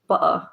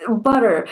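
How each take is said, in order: First: "butter" with the T swallowed; T dropped in butter. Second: Said in the usual way. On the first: Shown as a demonstration. Explaining British speech to viewers, T dropped in "butter". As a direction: say "butter" as "buh-uh", no T sound. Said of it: "you replace the T's with".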